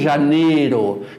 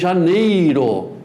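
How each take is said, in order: First: The middle I sound is dropped. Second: The middle I sound is clearly pronounced. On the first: The speaker calls it wrong. "e não em janeiro" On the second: The speaker calls it right. "os Is intermediário, eu digo que vou, vou tirar férias em janeiro"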